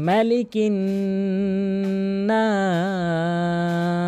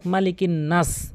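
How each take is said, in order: First: The vowel in 'nas' is drawn out long. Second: The vowel in 'nas' is cut short. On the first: The word means people. The speaker calls it right. "এখানে অবশ্যই টানবেন" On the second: The word takes on the opposite meaning. The speaker calls it wrong. "নাস এখানে দ্রুত বলে ফেলে"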